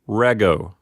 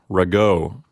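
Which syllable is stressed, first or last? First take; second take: first; last. First: The stress is on the first syllable. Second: The stress is on the last syllable. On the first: The speaker calls it right. "You're going to put the accent on the first syllable" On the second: The speaker calls it wrong. "not rego"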